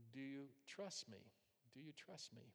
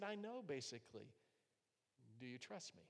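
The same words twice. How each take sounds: First: Second time much softer, almost a whisper; soft, tender question. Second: Soft, fading to a near whisper; gentle voice of God. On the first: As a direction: ask it gently, letting it fade. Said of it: "God says". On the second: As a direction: speak tenderly, as God reassuring. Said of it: "And he said". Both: Retold or imitated.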